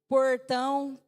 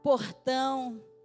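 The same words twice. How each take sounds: First: It is said in a Paulista (São Paulo) accent. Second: It is said in a Carioca (Rio) accent. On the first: The speaker's true origin slips out. "chega uma hora que ele esquece, porque ele não é aquilo" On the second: The speaker is pretending to be from Rio. "vou fingir que eu sou carioca"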